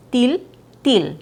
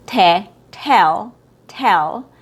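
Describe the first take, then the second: First: "til" as a tight TEEL; mispronounced long E. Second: "tell" with an open EH; short E sound. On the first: Teacher showing how tell goes wrong, tense vowel. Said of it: "when it's mispronounced". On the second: Teacher modelling the first example, short E. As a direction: sound out "te", then a relaxed "tell". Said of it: "It has a short E sound". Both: Shown as a demonstration.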